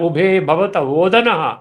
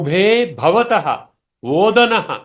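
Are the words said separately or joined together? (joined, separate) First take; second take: joined; separate. First: The words run together, with endings merged. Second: Each word is said separately, with its full ending. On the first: "ఇది మళ్ళీ కలిపి చదివాను" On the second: "ఇందాక విడగొట్టించి చదివాను"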